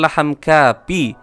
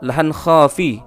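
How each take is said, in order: First: The second word starts with a plain k sound. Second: The second word starts with a rasping kh sound. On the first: The speaker calls it wrong. "bukan laham kapi, bukan menggunakan huruf kap" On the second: The speaker calls it right. "akan tetapi menggunakan huruf kho. Yang benar adalah"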